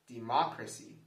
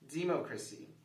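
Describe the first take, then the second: First: The stress is on the second syllable. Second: The stress is on the first syllable. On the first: "If we stress the second syllable" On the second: "If we're stressing the first syllable"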